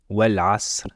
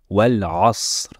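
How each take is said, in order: First: The s sound is light and plain. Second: The s sound is deep and emphatic. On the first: The speaker calls it wrong. "et non Wal asr" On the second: The speaker calls it right. "On prononce Wal asr"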